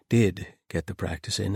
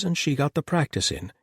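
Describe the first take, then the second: First: "Did" stressed at the front; emphatic "Did", the rest falling away. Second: Said in the usual way. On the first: A narrator's reading. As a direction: lean on "Did" as a correction. Self-correction stressing the verb.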